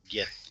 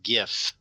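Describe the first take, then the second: First: The word ends with a th sound. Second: The word ends with an f sound. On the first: The speaker calls it right. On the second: The speaker calls it wrong. "Not GIF"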